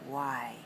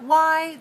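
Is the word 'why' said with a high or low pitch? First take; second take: low; high. First: The word is said on a low pitch. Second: The word is said on a high pitch. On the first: It makes a suggestion. The speaker calls it right. "We make it low tone" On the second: It asks for a reason. The speaker calls it wrong. "this word is not why"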